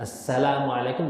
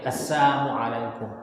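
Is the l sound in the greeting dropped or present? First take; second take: present; dropped. First: The l sound is pronounced in the greeting. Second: The l sound is dropped from the greeting. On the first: The speaker calls it right. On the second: The speaker calls it wrong.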